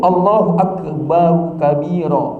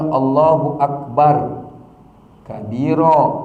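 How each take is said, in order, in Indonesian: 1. Bunyi 'u' pendek menyambungkan akbar ke kabira. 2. Akbar berakhir tanpa vokal sebelum kabira. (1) "Dibaca akbaru" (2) "jangan dibaca"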